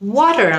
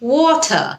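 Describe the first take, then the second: First: Water is said in an American accent. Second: Water is said in a British accent. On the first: "আমি যদি এভাবে বলি এটা কিন্তু American উচ্চারণ হয়" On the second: "ব্রিটিশরা এটাকে ওয়াটার এভাবে বলে।"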